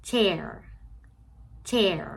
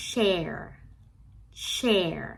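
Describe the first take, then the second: First: "chair" starting with a quick CH puff; short CH. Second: "share" starting with a long hushing SH. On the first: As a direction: make the CH in "chair" short, not hushed. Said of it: "ฟังเทียบเสียงกันดีๆนะคะ เก้าอี้". ("chair" ขึ้นต้นด้วย ch สั้นๆ) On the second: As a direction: stretch the airy SH at the start of "share". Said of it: "จะเป็น". ("share" ขึ้นต้นด้วย sh ลากยาว) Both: Shown as a demonstration.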